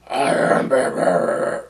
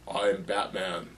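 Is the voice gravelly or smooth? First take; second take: gravelly; smooth. First: The voice is rough and gravelly. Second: The voice is smooth and slightly lower. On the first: The speaker calls it wrong. "the grovelly voice" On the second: The speaker calls it right. "My voice doesn't sound as grovelly, but it's just a little lower"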